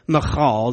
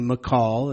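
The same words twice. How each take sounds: First: The middle consonant is a throaty guttural. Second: The middle consonant is a plain k. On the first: "the Michal, the guttural" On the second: "if you don't want to do the Michal, the guttural, then you can do Michal"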